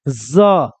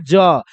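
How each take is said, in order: First: The consonant is a z sound. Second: The consonant is a j sound. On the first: "ज के नीचे अगर ये बिंदु टाइप के दिया हुआ तो इसको बोलते हैं ज" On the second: "एक होता है ये ज"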